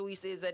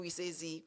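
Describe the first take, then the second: First: The letter is said the Jamaican way. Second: The letter is said the American way.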